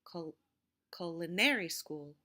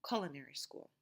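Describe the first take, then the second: First: Culinary with a loud, stretched third syllable, cu-li-NAR-y; misplaced stress. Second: Culinary stressed on CUL, low fall after it; first-syllable stress. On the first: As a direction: punch the NAR in culinary instead of CUL. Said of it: "Now, I didn't say". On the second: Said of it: "having the mark on the first syllable". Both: Shown as a demonstration.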